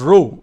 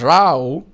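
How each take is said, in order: First: The vowel does not sound like cow's. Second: The vowel sounds like the one in cow. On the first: "R O W is also pronounced as row" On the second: "in this case, is row. Row here is a quarrel"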